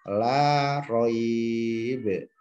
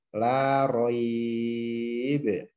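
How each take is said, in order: First: The vowel is held moderately, about four counts. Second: The vowel is held longest, about six counts. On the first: "dua alif" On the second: "tiga alif ... enam harokat"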